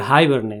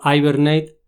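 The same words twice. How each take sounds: First: It is said with a fully English pronunciation. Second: It is said with a Spanish-style pronunciation.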